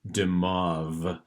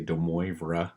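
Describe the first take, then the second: First: The name sounds different from its literal letters. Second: The name is sounded out following its letters. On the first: The speaker calls it right. "the how to say it is de Moivre, and I know it doesn't sound that way, the way that it's written" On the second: The speaker calls it wrong. "you might want to try to say de Moivre, but uh, that's not what it is"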